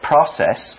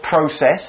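First: The word is said in an American way. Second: The word is said in a non-American way.

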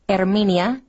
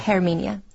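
First: The H at the start is silent. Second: The H at the start is pronounced. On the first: The speaker calls it right. "when you see an H at the beginning of a word, it is silent. So it would be Herminia" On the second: The speaker calls it wrong.

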